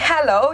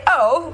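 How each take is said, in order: First: The h sound at the start is pronounced. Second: The h sound at the start is dropped. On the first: "instead of saying hello" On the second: "you can say"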